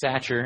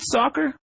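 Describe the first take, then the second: First: It sounds like satcher, with a 'tch' sound. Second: It sounds like the word soccer, with 'ck'. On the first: This is how many people misname him. The speaker calls it wrong. "Lots of people call you AJ Satcher" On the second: This is the name's real pronunciation. The speaker calls it right. "Is it soccer, like the sport?"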